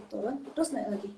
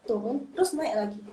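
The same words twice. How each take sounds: First: Said in the usual way. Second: Turun, terus naik lagi traced down then up; demonstrating the third-tone dip; tone contour shown. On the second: Shown as a demonstration. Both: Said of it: "Karena dia kayak".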